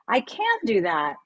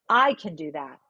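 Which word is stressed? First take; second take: can; I. First: The stress is on the word can. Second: The stress is on the word I.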